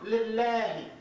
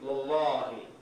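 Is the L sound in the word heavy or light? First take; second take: light; heavy. First: The L sound in the word is light. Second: The L sound in the word is heavy. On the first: "you notice the sound" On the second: "if it was preceded by a fatha, it would be"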